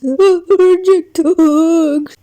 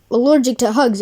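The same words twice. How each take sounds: First: Drawn-out wailing Allergic; slow shocked wail; slow dramatic. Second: Said in the usual way. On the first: Acted. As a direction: stretch it out in dismay. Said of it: "Allergic to hugs, eh?".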